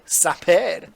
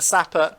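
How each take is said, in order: First: It is said in a French accent. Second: It is said in a plain English accent.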